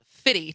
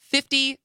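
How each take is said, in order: First: The middle f sound is dropped. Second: The middle f sound is clearly pronounced. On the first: The speaker calls it wrong. "He's not fitty to you" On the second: The speaker calls it right. "clearly pronounce [name]"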